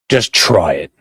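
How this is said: The voice is pitched very deep.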